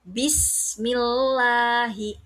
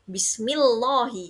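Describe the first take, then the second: First: The L is pronounced thin and light. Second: The L is pronounced thick and full. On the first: The speaker calls it right. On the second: The speaker calls it wrong.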